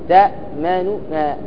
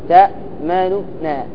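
The two takes are said the same way.

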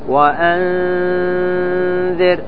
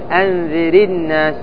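First: The final r ends with no vowel. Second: The r carries an i vowel into the next word. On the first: The reader stops on the word. "عندما تقف تقول وأنذر، تقف عليه بالسكون المحض" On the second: The reader joins it to the next word. "عندما تصله تقول أنذر الناس، تكسر الراء"

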